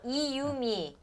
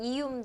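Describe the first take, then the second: First: The name is said slowly, with three clear syllables. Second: The name is said quickly, squeezed into two syllables.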